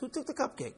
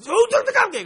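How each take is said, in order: First: The question is asked in a gentle, calm tone. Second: The question is asked in an angry, harsh tone. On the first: Owning up feels safe. "if she said it like that, you say, "Oh, me, sorry."" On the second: Owning up feels dangerous. "But she doesn't say it like this"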